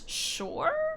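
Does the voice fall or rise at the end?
rise. The voice rises at the end. It sounds like a question. "question mark?"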